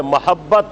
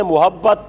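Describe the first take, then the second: First: محبت said mahabbat, ma with zabar; zabar on meem. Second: محبت said mohabbat, pesh instead of zabar; common mispronunciation. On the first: Teacher correcting the class, saying محبت with zabar. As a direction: open the first syllable of محبت as ma. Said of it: "میم کی زبر ہے". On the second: Teacher mimicking how people misread محبت. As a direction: say محبت with an o sound, the way people get it wrong. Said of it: "اس کو لوگ پڑھتے ہیں". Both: Shown as a demonstration.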